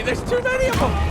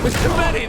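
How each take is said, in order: First: Very high panicked shout; panicked yell. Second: High loud panicked cry; panicked yell. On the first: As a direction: scream it as they swarm. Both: Real, not acted. Swarmed by enemies.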